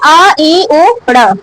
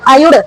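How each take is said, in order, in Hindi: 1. हर ध्वनि छोटे विराम के साथ अलग-अलग बोली जाती है। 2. ध्वनियाँ जल्दी-जल्दी एक शब्द की तरह एक साथ बोली जाती हैं।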